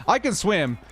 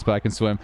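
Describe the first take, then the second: First: "can swim" pitched up high in protest; emphatic insistence. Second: Said in the usual way. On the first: Real, not acted. Streamer defends his swimming to chat, higher insistent "I can swim".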